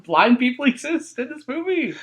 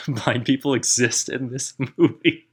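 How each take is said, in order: First: Pitched way up, slow mock wonder; mock the sequel's big reveal; mock announcement. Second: Laughing echo. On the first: Mocking the sequel. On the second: Real, not acted. Echoing partner while laughing.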